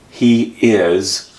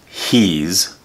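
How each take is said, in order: First: It is said as two full separate words. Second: It is one syllable ending in a z sound.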